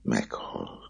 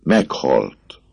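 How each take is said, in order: First: Much softer, frozen Meghalt; the girl echoes him in a frozen voice; icy. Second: A mild cried-out Meghalt. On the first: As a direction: let Meghalt drop dead and cold. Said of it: "ugyanazon a fagyos hangon". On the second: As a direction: blurt Meghalt as a half-shout. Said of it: "kiáltotta a pap". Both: Acted.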